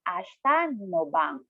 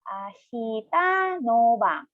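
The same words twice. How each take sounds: First: It is said at a normal, connected speed. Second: It is said slowly, syllable by syllable.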